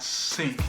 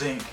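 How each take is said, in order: First: The word begins with an S sound. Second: The word begins with a Z sound. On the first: "not sink" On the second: "It's like with a Z"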